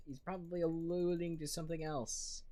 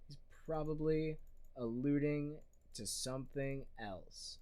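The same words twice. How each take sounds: First: Said in the usual way. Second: "probably alluding to something else" broken by deliberate pauses. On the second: Real, not acted. Repeats own claim for emphasis.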